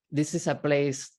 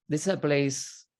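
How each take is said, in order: Both takes have the same delivery.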